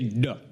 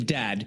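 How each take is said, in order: First: The word ends on a short reduced vowel. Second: The word ends with a clear d sound. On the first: "They don't even say the vowel" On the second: "instead of saying dad, which is very long"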